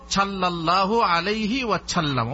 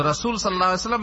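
First: সাল্লাল্লাহু said as chhallallahu, with an aspirated ch in place of the s; Bengali-spelling reading. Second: সাল্লাল্লাহু with a clean Arabic s, rattled off fast; quick, correct Arabic recitation of সাল্লাল্লাহু আলাইহি ওয়াসাল্লাম; fast, fluent রাসূল সাল্লাল্লাহু with a true s sound; correct Arabic pronunciation. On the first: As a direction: read সাল্লাল্লাহু ওয়াসাল্লাম with ছ sounds as the Bengali spelling gives. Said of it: "তো আমরা কিভাবে পড়ব?". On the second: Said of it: "যদি সঠিক উচ্চারণ করে". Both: Shown as a demonstration.

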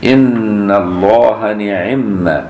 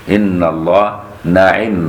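First: نعم said ni'imma with the nun clearly given an i, very slowly; kasra on the nun. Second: نعم said na'imma with an open a on the nun, slowly; fatha on the nun. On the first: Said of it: "بكسر النون بتاع نعم". (نعم بكسر النون) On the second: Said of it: "بفتح النون". (نعم بفتح النون) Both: Shown as a demonstration.

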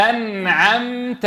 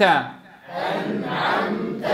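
First: أنعمت slow, nun held still; teacher leading recitation; slow model. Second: أنعمت whispered very slowly; whispered drill. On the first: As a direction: drill أنعمت with a steady nun. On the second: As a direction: breathe أنعمت softly. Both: Shown as a demonstration. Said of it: "قولوها معي".

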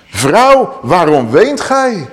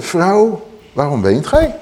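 First: Slow, raised angel's question, stretched out; slow, lifted angelic voice; gentle angel. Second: Said in the usual way. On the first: Acted. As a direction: ask her tenderly, as a heavenly messenger. Angels question the weeping woman.

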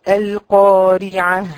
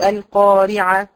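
First: القارعة drawn out, ha-free ending kept clean; correct slow recitation. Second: القارعة said quickly, carelessly; wrong reading. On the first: Teacher models القارعة correctly for the girls. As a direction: intone القارعة slowly. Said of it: "بعض الكلمات". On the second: Teacher imitates the wrong القارعة for the students. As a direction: toss off القارعة as the mistake. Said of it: "هذا خطأ". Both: Shown as a demonstration.

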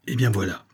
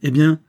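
First: "eh bien voilà" at usual level, falling at the end; unforced falling tune on "eh bien voilà"; hesitant answer. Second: "eh bien" high, loud and rising as a question; loud questioning lift on "eh bien"; impatient prompt. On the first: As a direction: settle into "eh bien voilà" before explaining. Servant hesitates before his account. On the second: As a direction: prod him with a sharp, rising "eh bien". Master prompts the hesitating servant. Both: A narrator's reading.

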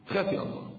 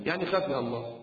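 First: Hushed warning; whispered. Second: Said in the usual way. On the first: Shown as a demonstration. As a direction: whisper خافي الله with no voice.

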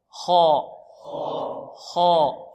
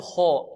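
First: خاء as a long, thick khaa, lips unrounded; correct heavy kha. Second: خاء turned into "kho" with pursed lips; wrong rounded kha. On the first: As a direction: drill خاء heavily with relaxed lips. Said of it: "بدون ضم شفتين". (خاء مفخمة ممدودة بلا ضم شفتين) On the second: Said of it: "لا نقول خاء". (خاء خطأً بضم الشفتين) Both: Shown as a demonstration.

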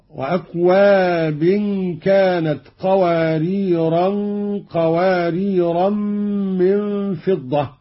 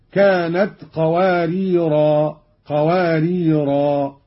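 First: Slow recitation, "قواريرا" ending nasally as "qawariran"; both "قواريرا" joined onward with nasal n; tanween when joining. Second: "قواريرا" ending in long aa, no n; stop on alif. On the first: Teacher demonstrates joined reading, "قواريرا" with tanween. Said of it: "قرأ قالون بتنوين الثلاث كلمات وصلا". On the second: Teacher demonstrates pausal reading, "قواريرا" ending in long alif. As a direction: slowly stop on each "قواريرا" as "qawariraa". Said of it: "وقف بالألف هكذا". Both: Shown as a demonstration.

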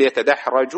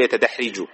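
First: يتدحرج with an "a" after the r: yatadahraju; corrected vowel. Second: يتدحرج with an "i" after the r: yatadahriju; wrong vowel. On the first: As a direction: say يتدحرج as yata-dah-RA-ju, fatha on the ra. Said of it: "نقول يتدحرج". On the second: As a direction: say يتدحرج as yata-dah-RI-ju, kasra on the ra. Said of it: "ولا نقول يتدحرج". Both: Shown as a demonstration.

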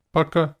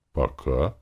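First: High, louder goodbye; short goodbye. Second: Answering goodbye. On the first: Man parting from Лика at the guild, high goodbye. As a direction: toss out the goodbye on a high pitch. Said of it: "сказал я". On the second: Woman answering his farewell, rising goodbye. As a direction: answer lightly, lifting at the end. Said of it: "ответила она". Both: A narrator's reading.

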